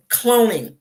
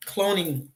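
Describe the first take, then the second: First: 大声喊出cloning; loud cloning. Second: Said in the usual way. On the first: Acted. Shouted repeat of a word.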